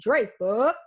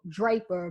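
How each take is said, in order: First: The name is said in a local accent. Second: The name is said in a neutral accent. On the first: This is how locals say it. "but we call it" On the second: This is how outsiders say it. "I grew up in a town called"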